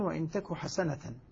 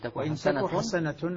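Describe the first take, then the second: First: The last word ends with the vowel a and n. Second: The last word ends with the vowel u and n. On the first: The word is the predicate of the verb. "الباقون" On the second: The word is the subject of a complete verb. "يقرؤونها بالرفع"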